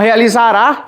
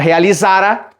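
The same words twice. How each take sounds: First: The stress falls on the last syllable. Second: The stress falls on the second-to-last syllable. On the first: The action will happen in the future. "realizará, futuro, amanhã" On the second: The action had happened before another past event. "pretérito mais perfeito; uma paroxítona sem acento"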